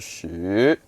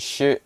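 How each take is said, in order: First: The pitch starts low and goes up. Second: The pitch stays flat and level. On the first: "it like starts low" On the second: "flat tone shu"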